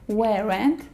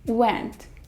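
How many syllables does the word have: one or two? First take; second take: two; one. First: The word is said with two syllables. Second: The word is said with one syllable. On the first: The speaker calls it wrong. "It isn't" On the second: The speaker calls it right. "there's only one syllable in it"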